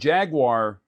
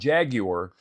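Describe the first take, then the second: First: Jaguar is said with an American accent. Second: Jaguar is said with a British accent.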